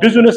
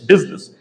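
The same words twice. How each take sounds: First: The vowel after the s is sounded. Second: The vowel after the s is silent. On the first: The speaker calls it wrong. "It's not business" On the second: The speaker calls it right. "in business, you remain silent, so it's business. And S gives the sound of Z"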